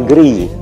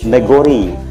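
First: The second vowel is pronounced like 'e'. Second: The second vowel is pronounced like 'o'. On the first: This is the standard form, not the local one. "bukan negeri" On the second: This is how the local people say it. "kalau lafal orang Kayu Agung"

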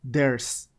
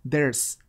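First: It is said as one contracted word. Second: The same.

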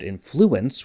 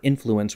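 First: The stress is on the second syllable. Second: The stress is on the first syllable. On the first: "with the accent on the second" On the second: "with the accent on the first syllable"

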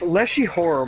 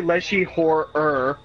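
First: The last word has two syllables. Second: The last word has an extra third syllable. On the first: The speaker calls it right. "It's Lechi Horror" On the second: The speaker calls it wrong. "Don't say Lechi Horror-er"

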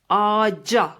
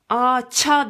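First: The consonant before the last vowel is 'j'. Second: The consonant before the last vowel is 'ch'. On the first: The speaker calls it right. "Bu artık c'ye dönüşür" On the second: The speaker calls it wrong. "Ağaça demeyiz"

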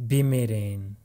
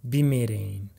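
The two takes are said the same way.

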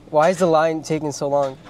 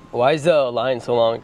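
First: It is said in his normal voice. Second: It is said in a deliberately deeper voice.

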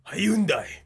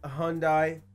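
First: It is said the way they say it in England. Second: It is said in an ordinary American way.

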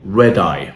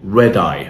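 First: The d sound is short, linking into eye. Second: The d sound is short, linking into eye.

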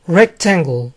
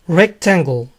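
The two takes are said the same way.

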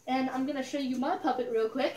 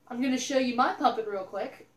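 First: It is said more quietly. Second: It is said more loudly.

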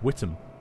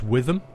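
First: The middle consonant is a plain T sound. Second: The middle consonant is a TH sound. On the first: This is how it is said locally. The speaker calls it right. "For some reason, it's pronounced Whittam" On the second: This is how the spelling suggests it is said. The speaker calls it wrong. "you'd think it's pronounced Witham, W-I-T-H-A-M, but it's not"

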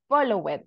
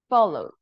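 First: The ending is an extra syllable. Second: The ending is a plain D sound. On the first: The speaker calls it wrong. "we don't say call it or follow it" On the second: The speaker calls it right. "We say called, followed"

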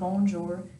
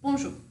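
First: The word is said slowly. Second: The word is said very fast. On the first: The speaker calls it wrong. "It's not bonjour" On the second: The speaker calls it right. "very fast"

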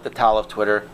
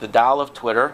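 First: Tao is said with a Tennessee regional pronunciation. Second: Tao is said in the standard official way. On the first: "In Tennessee, we call it" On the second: "That's the official pronunciation"

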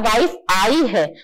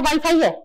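First: It is said with a break after "wife". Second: It is said as one joined word. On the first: The wife has come. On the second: There is Wi-Fi here.

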